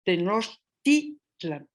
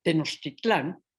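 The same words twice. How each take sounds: First: Slow "Tenochtitlan", stressed on "tit", not the end; "Tenochtitlan" drawn out, te-noch-TIT-lan; llano stress. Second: Slower "Tenochtitlán", stress on the last syllable "tlán"; the common modern "Tenochtitlán", stressed at the end; "Tenochtitlán" said a bit slowly, te-noch-tit-LÁN; final stress. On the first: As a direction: say "Tenochtitlan" slowly with the stress on the next-to-last syllable. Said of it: "dejando la voz en forma de acento llano". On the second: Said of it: "La forma aguda tan usada". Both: Shown as a demonstration.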